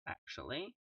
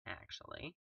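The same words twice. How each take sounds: First: Said in the usual way. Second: "actually" whispered, no voice. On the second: Real, not acted. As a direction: breathe "actually" softly. Repeated word, second whispered.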